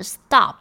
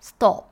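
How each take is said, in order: First: American pronunciation. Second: British pronunciation. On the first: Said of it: "在美式呢". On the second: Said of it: "在英式英文里面就会念stop". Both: Shown as a demonstration.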